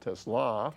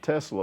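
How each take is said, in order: First: The stress is on the second syllable. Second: The stress is on the first syllable. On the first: The speaker calls it right. "the emphasis on the, ... but the second syllable" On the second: The speaker calls it wrong. "not Tesla like the car"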